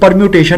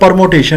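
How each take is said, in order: First: The second syllable is said as 'myoo'. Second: The second syllable is said as 'mo'. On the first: The speaker calls it right. "ये परम्यूटेशन है" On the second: The speaker calls it wrong. "परमोटेशन नहीं... which is wrong"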